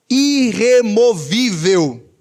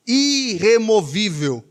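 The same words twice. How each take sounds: First: Irremovível stretched out slowly, syllable by syllable; slow, weighty preaching stress on irremovível; emphatic irremovível. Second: Irremovível repeated slowly, easing off; slow, settled echo of irremovível; measured irremovível. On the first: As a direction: hammer each syllable of irremovível. Preacher hammers the key word. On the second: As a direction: let irremovível sink in, drawn out. Softer repeat of the key word. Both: Real, not acted.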